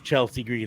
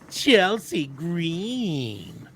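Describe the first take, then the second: First: The name is said in a plain, normal voice. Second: The name is said in a whiny voice.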